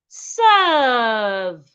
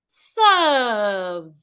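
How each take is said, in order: Both takes have the same delivery.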